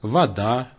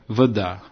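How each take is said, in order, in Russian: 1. Первый гласный — полный звук «а». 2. Первый гласный — редуцированный звук шва. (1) "реализуется гласным типа «а»" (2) "реализуется редуцированным звуком типа «шва»"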